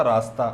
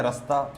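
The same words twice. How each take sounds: First: रास्ता with a full long "aa" in the first syllable, raa-sta; written form. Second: रास्ता with a shortened first vowel, rə-sta; spoken form. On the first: Teacher shows students the spelled form, full long first vowel. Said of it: "सही शब्द क्या होता है आपका". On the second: Teacher shows how people actually say it, short first vowel. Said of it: "पर बोलते क्या है". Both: Shown as a demonstration.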